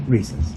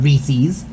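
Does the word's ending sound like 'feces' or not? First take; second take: not like feces; like feces. First: The ending does not sound like 'feces'. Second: The ending sounds like the word 'feces'. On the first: The speaker calls it right. "so it is officially Reese's" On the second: The speaker calls it wrong. "so it sounded like feces"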